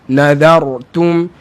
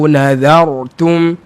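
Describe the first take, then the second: Both takes have the same delivery.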